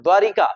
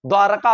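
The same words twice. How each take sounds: First: द्वारिका with an i after र; teacher naming the error द्वारिका; wrong form. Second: द्वारका with no i after र; teacher modelling द्वारका; correct form. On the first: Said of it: "होता ही नहीं है". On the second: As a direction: say द्वारका as dwaar-ka. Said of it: "द्वारका होता है". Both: Shown as a demonstration.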